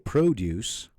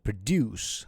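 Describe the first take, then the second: First: The stress is on the first syllable. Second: The stress is on the second syllable. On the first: It is a noun. "stress on the first syllable... make a word a noun" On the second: It is a verb. "stressing on the second syllable would make it a verb"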